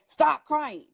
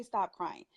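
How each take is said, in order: First: Louder, higher mock order; parent's command. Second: Said in the usual way. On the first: Parent to a crying child, imitated sharp command. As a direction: imitate a parent cutting off the tears. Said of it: "You hear the parents say". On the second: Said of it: "No, don't say".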